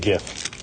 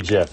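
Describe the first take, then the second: First: The word begins with a hard G sound. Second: The word begins with a soft J sound. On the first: The speaker calls it right. "I pronounce the G for sure" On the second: The speaker calls it wrong. "stop. Knock it off"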